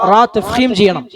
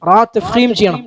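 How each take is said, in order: The two takes are said the same way.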